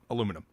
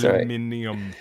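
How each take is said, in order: First: It is said the American way, one syllable shorter. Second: It is said the British way, every letter sounded. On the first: The speaker calls it right. "but come on" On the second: The speaker calls it wrong. "they have to pronounce every single letter that's in the word"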